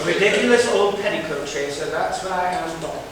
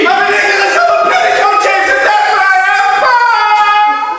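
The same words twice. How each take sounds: First: It is said tamely, with little energy. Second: It is said strongly, with gusto and energy.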